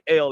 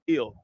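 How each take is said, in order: First: The name is said with an 'eh' vowel. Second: The name is said with an 'ih' vowel. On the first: This is the usual way of saying the name. "they don't say L" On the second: This is how the old timers said the name. "they say ill"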